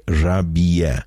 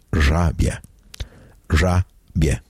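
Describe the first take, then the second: First: Żabie pulled apart into three syllables, ża-bi-e; żabie with an extra i vowel inserted before the e; wrong three-syllable version. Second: Żabie as two syllables, ża-bie; żabie with bie kept as one syllable; correct two-syllable version. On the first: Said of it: "do not say żabie with three syllables". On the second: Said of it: "the correct pronunciation is". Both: Shown as a demonstration.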